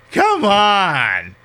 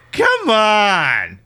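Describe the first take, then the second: No difference in how they are said.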